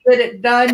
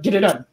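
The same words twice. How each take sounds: First: It is said at a normal speed. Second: It is said fast, mushed together.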